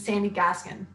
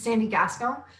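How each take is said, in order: First: The surname is said in an English way. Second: The surname is said in a French way. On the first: The speaker calls it wrong. "That's not technically how you say it" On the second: The speaker calls it right. "it's a French thing"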